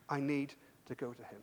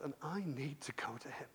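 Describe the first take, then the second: First: Said in the usual way. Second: A soft whisper, much quieter, like a secret decision; whispered resolve. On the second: Acted. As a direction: breathe it to yourself, barely voiced. Jairus's inner resolve.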